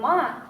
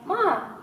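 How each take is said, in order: First: It is said with the tone meaning horse. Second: It is said with the tone meaning mother. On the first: The word means horse. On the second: The word means mother. "usually means mother"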